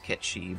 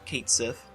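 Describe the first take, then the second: First: It is said the Japanese way, Ketshi. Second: It is read as spelled in English. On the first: "the Japanese pronunciation" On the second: "I'm just saying it how his name is actually looks"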